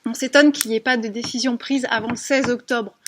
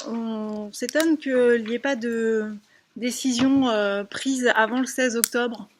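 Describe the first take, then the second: First: Speaking up through the mask. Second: Muffled, hesitant speech behind a mask; through a face mask. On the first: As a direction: push the voice to carry past a face mask. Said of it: "je vais essayer de parler plus fort". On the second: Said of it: "parler plus fort avec le masque". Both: Real, not acted.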